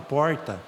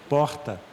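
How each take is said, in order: First: The R is a curled-back caipira R. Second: The R is said the standard way.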